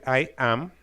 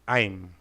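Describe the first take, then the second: First: Two full words, with the vowel of am. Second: One contracted syllable, without the vowel of am. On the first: "para decir I am" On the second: "también podemos decir I'm"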